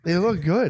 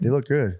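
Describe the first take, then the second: First: It is said cheerfully, with a smile. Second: It is said glumly, with a frown.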